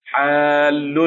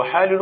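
First: حال drawn out with a long vowel into doubled ل; merged double letter. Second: حالل with the two ل sounded separately; unmerged double letter. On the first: Teacher correcting a verse, حال drawn out with doubled ل. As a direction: stretch حال into one heavy merged ل. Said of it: "كيف نقول في الأصل". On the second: Teacher quoting a faulty verse word, حالل with unmerged ل. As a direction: break حالل into separate l syllables. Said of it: "مخالفة للقياس الصرفي". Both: Shown as a demonstration.

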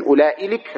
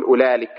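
First: أولئي لك said ulaa'ilik, with hamza; lengthened form. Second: أولئك said ulaalik, without any hamza; shortened form. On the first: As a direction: break after long laa with a glottal stop in أولئي لك. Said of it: "الذين يمدونه". (أولائلك بالمد والهمزة) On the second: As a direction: glide from long laa straight into lik in أولئك. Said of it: "من قصره". (أولالك بالقصر دون همزة) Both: Shown as a demonstration.

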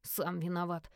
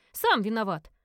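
First: Low, soft sulky echo; grumbling. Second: Loud, emphatic blame; firm reproach. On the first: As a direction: grumble it back under your breath. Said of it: "проворчал парень". (тихо и низко проворчать) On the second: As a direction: throw the blame back at them loudly. Sister's retort, then brother echoes it. (громкий твёрдый упрёк) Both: A narrator's reading.

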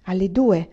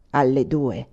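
First: Startled question. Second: Low basso profondo, dropped well down; deep bass voice. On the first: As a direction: echo it back as a startled question. Startled echo of the bass answer. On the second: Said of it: "rispose una voce di basso profondo". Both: A narrator's reading.

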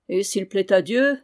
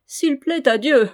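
First: Said in the usual way. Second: Loud, high, jeering repetition; mocking echo. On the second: A narrator's reading. Gueffès repeats his lord's words back, mockingly. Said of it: "répéta Gueffès d'un air goguenard".

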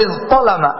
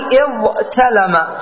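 First: "اضطلم" with emphatic ṭ replacing the t; changed form. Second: "اضطلم" split slowly, with plain t after ẓ; underlying form. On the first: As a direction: say "اضطلم" as iẓṭalama. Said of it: "ثم تقول اضطلم". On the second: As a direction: say "اضطلم" as iẓ-talama, unchanged t. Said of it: "ستقول اضطلم في الأصل". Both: Shown as a demonstration.

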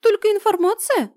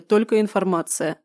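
First: High squeaky incredulous question; squeaky little creature asking. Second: Said in the usual way. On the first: Acted. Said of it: "уточнил Блау".

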